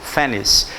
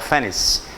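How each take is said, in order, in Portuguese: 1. A palavra termina com som de s. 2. A palavra termina com som de s.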